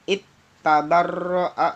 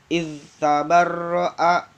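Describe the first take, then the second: First: The final hissing sound merges into the next consonant. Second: The final hissing sound is kept clear and distinct. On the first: The speaker calls it wrong. "nggak boleh dibaca it tabarro'a" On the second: The speaker calls it right. "harus dibaca seperti biasa"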